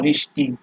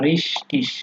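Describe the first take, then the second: First: The word ends with a hard k sound. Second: The word ends with a soft hissing sound.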